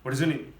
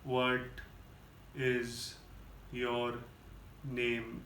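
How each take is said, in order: First: It is said very fast. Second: It is said very slowly.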